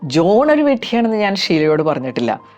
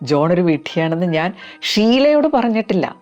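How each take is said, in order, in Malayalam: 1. Stress ഉള്ളത് ജോൺ എന്ന വാക്കിലാണ്. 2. Stress ഉള്ളത് ഷീലയോട് എന്ന വാക്കിലാണ്. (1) "ജോൺ എന്ന ഭാഗത്തിന് സ്ട്രെസ് കൊടുത്ത് ഇതൊന്ന് റിപ്പീറ്റ് ചെയ്യാം" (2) "വേറെ ഒരുപാട് പേരോട് പറഞ്ഞിട്ടുണ്ട്, പക്ഷെ ഷീലയോട് പറഞ്ഞിട്ടില്ല"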